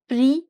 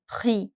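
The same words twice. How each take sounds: First: The r is said as a simpler, plainer sound. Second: The r is said as a throaty French sound. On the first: An easier fallback for learners who cannot make the sound. "If you can't get that accent" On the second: The proper French pronunciation.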